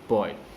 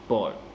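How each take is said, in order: First: The vowel sounds like the vowel in boy. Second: The vowel sounds like the vowel in boy.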